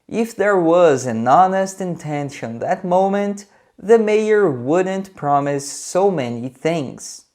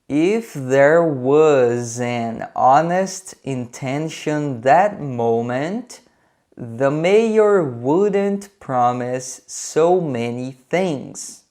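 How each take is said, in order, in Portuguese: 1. A frase é falada em ritmo mais rápido. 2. A frase é falada em ritmo mais lento.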